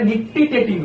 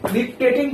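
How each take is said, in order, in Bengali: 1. শব্দটা চার দলে বলা হয়। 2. শব্দটা তিন দলে বলা হয়। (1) "এটা নিকটিটেটিং হবে" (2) "আমি নিকটেটিং প্রনাউন্স করছি"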